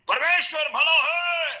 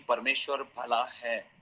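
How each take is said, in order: First: It is said loudly and forcefully. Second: It is said quietly and calmly.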